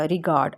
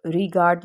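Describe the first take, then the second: First: Said in the usual way. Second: Regard split slowly, stress on "ree". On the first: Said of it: "अब regard में री". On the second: Shown as a demonstration. Teacher marking the stressed syllable, regard with drawn-out stressed "ree". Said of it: "इस पे stress किया जा रहा है".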